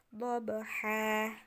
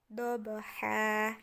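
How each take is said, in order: The two takes are said the same way.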